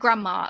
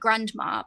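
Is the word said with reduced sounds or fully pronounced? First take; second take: reduced; fully pronounced. First: The middle sounds are softened and partly dropped. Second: Every sound is pronounced fully and harshly. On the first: A native speaker says it. "we say like grandma" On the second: A learner of the language says it. "someone learning English, you might pronounce it like grandma because it's it's pronouncing the thing"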